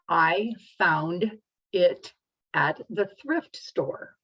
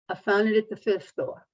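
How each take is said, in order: First: Each sound is shaped clearly and distinctly. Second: The words are mumbled and run together. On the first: The speaker calls it right. "that is an example of good articulation" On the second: The speaker calls it wrong. "That's mumbling and it's not articulating the words correctly"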